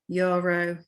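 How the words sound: It is said with English pronunciation. "in English"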